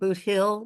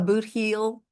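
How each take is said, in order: First: The second word has a short 'i' vowel. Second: The second word has a long 'ee' vowel. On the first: This is how the name is commonly pronounced. "it sounds like Boot Hill" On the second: This is the actual written name. "it's Boot Heel is is the actual name"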